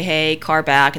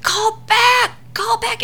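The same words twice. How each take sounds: First: Friendly calm warning; nicely said. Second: Very high, strained mock screech; frantic yelling. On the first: Shown as a demonstration. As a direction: call it out nicely and easily. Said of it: "you nicely say". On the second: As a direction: screech the warning like she's panicking. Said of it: "she's freaking out".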